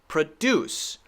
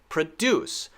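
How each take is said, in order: First: The stress is on the second syllable. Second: The stress is on the second syllable.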